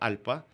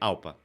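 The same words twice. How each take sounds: First: It is pronounced with a Spanish accent. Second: It is pronounced with a Brazilian Portuguese accent. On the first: "no idioma em espanhol" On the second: "se a gente for usar o nosso abrasileirado aqui"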